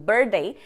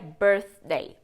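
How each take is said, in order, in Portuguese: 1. Soa como 'bird day', sem 'th'. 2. Tem som de 'th' antes de 'day'. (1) "Se você falar birthday ou birthday, é o dia do pássaro" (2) "a pronúncia certinha seria birthday"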